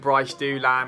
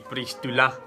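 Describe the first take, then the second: First: The name is said in an anglicized way. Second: The name is said the French way. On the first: This is the speaker's own habitual way of saying it. The speaker calls it wrong. "I call him" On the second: This is how the name should properly be said. The speaker calls it right. "his pronunciation should be"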